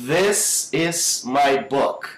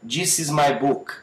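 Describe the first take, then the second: First: Slow "this is my book" with buzzed TH; careful slow model, "this" buzzing on the tongue tip; correct vibrating TH. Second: "This" said as "djis" in "This is my book"; Brazilian-style "dj" opening "This is my book"; learner's wrong "This", with DJ for TH; mispronounced D. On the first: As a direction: stretch the voiced TH opening "this is my book". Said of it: "A gente fala". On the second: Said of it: "também não é this". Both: Shown as a demonstration.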